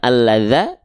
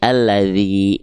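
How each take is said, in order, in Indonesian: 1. Kata ini berakhir dengan vokal a. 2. Kata ini berakhir dengan vokal i. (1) "bukan alladza" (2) "mesti kita baca dengan vokal i"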